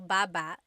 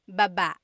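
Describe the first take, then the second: First: The stress is on the first syllable. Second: The stress is on the second syllable.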